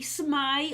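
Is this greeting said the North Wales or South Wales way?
North. It is said in the North Wales form. "But North Wales, they tend to say smai or shmai"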